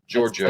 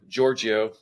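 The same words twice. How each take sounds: First: The name is said with two syllables. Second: The name is said with three syllables. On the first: The speaker calls it right. "it's two syllables" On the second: The speaker calls it wrong. "three syllables"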